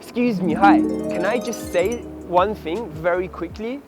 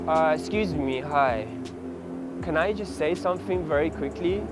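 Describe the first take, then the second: First: It is said with lively, upbeat energy. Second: It is said with low, flat energy.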